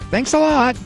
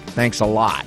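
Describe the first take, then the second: First: It is said in a warm, sincere tone. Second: It is said in a mocking, sarcastic tone. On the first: The thanks is genuinely meant. "meaning thanks a lot" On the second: The thanks is not really meant. "not thanks a lot"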